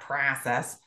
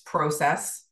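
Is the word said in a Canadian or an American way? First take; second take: American; Canadian. First: The word is said with an American pronunciation. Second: The word is said with a Canadian pronunciation. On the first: The speaker calls it wrong. "not process" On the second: The speaker calls it right. "I'm Canadian. ... It's process"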